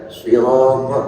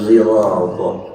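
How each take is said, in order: First: The word begins with a heavy, emphatic s sound. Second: The word begins with a sound blended toward z. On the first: "ada shad" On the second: "ada ismam"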